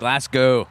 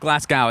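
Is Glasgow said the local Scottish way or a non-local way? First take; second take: local Scottish; non-local. First: It is pronounced the local Scottish way. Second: It is pronounced a non-local, outsider way. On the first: The speaker calls it right. "it's Glasgow" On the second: The speaker calls it wrong. "It's not it's not Glasgow"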